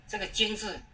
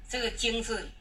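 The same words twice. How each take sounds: The two takes are said the same way.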